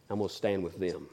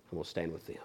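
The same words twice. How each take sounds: First: Quiet resolve. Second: Much lower and softer, fading out; hushed repeat. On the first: Judas choosing to stand with the crowd, low and soft. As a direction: lower and softer, deliberate. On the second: Judas repeats his choice to Jesus, hushed and low. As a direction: let it sink to almost nothing. Repeat falling to near silence. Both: Acted.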